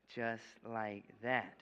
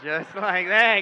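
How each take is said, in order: First: Drawn out slowly. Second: Big slow shout with a laugh; loud slow triumphant. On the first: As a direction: let each word land slowly. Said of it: "you show your hand empty". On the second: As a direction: bellow it like a reveal. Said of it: "pull out the egg". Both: Shown as a demonstration.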